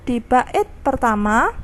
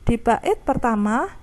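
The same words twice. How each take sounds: The two takes are said the same way.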